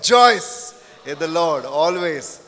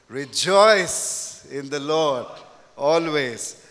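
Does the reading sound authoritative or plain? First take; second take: authoritative; plain. First: It is read smiling, firm and authoritative. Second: It is read plainly, without a smile or force.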